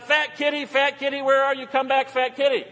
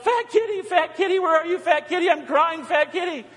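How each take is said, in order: First: High-pitched call for a lost cat; imitated calling out. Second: Very high-pitched mock wail for a pet; imitated frantic yell. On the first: Ann calling the cat in at night, imitated yell. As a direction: mimic someone calling a pet home. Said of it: "Ann yells out". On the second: Megan calling the missing cat, mock-distressed yell. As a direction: mimic a distressed call, pitched right up. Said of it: "Megan yells out".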